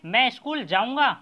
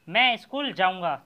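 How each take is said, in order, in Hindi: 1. यह प्रश्न के रूप में बोला गया है, आवाज़ ऊपर उठती है। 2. यह कथन के रूप में बोला गया है, आवाज़ नीचे जाती है। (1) "यहाँ पर मैं पूछ रहा हूँ" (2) "तो इसमें मैं कुछ आपको बता रहा हूँ"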